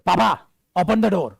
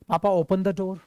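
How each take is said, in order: First: It is said in a rude, harsh tone. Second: It is said in a polite, gentle tone.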